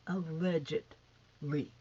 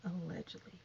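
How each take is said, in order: First: ALLEGEDLY stretched slowly, syllable by syllable; drawn-out emphasis. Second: Said in the usual way. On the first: Real, not acted. Vlogger hedging her allegations, "Allegedly" slow and emphatic. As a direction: draw out "Allegedly" with pointed weight.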